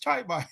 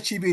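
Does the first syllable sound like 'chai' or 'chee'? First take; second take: chai; chee. First: The first syllable sounds like 'chai'. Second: The first syllable sounds like 'chee'. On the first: "they'll pronounce C H I as uh, as in child" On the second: "If you say if you say Chibi in England"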